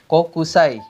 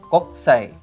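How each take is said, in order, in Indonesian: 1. Vokal setelah k pertama dibaca. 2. Vokal setelah k pertama dihilangkan. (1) "ada lagi kokusai" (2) "dibacanya koksai"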